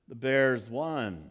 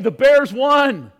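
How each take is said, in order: First: The voice sounds flat and disappointed. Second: The voice sounds happy and excited. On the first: The speaker is unhappy about the result. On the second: The speaker is glad about the result. "It's hey"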